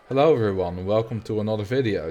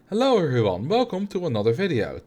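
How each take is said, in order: First: It is said in a low voice. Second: It is said in a higher voice.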